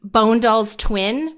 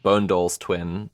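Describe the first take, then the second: First: Bone Doll's Twin said slowly, each word spaced; slow and deliberate. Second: Bone Doll's Twin, lower and slow; slow and deliberate. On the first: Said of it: "follow me at". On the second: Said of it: "Like the word bone and the word dolls". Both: Shown as a demonstration.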